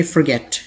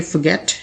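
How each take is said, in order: First: Forget as "fer-GET", r sounded; American pronunciation. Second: Forget as "fuh-GET", r silent; British pronunciation. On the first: Teacher contrasts the American way for learners, American pronunciation. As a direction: say forget with an r in the first syllable. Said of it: "American English में आप इसे कहेंगे". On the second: Teacher contrasts the British way for learners, British pronunciation. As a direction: say forget without any r. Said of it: "British English में आप इसे कहेंगे". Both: Shown as a demonstration.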